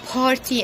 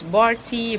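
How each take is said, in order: First: The word begins with a voiceless P sound. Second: The word begins with a voiced B sound. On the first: The speaker calls it right. "not party" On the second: The speaker calls it wrong. "we say sometimes"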